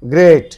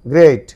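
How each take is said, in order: First: The vowel sounds like the one in 'gate'. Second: The same.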